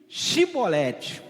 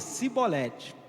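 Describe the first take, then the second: First: The word begins with a 'sh' sound. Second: The word begins with an 's' sound. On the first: "diz-lhes Shibolete" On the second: "por ter um sotaque, falava o quê?"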